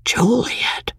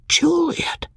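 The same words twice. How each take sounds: First: Stunned, breathless whisper; barely breathes the name in shock. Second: Whispered name, high and hollow with despair; a lost, wondering whisper of her name. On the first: Husband reading his wife's farewell note, stunned whisper. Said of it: "in a stunned way". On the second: Abandoned husband repeating her name, despairing whisper. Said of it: "a dumb, despairing wonder". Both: A narrator's reading.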